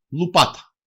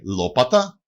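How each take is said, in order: First: «λουπάτα» as lu-PA-ta; u in the first syllable of «λουπάτα», stress on the second; dialect variant. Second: «λόπατα» as LO-pa-ta; standard form. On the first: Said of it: "προφέρεται και ως". («λουπάτα» με ου και τόνο στο πα) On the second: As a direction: stress the first syllable of «λόπατα», with o. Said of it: "προφέρεται και ως λουπάτα". («λόπατα» με ο και τόνο στην αρχή) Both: Shown as a demonstration.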